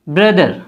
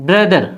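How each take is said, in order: No difference in how they are said.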